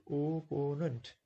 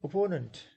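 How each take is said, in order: First: "opponent" slowly split into three syllables. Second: Said in the usual way. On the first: Shown as a demonstration. Teacher showing students three syllables in "opponent", syllable by syllable. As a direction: stretch out each of the three beats of "opponent". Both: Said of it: "three syllables".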